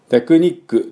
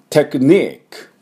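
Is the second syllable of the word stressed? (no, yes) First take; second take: no; yes. First: The second syllable is not stressed. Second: The second syllable is stressed. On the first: The speaker calls it wrong. "テクニックではありません。" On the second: The speaker calls it right. "2 のところを強く言えば、まず通じます。"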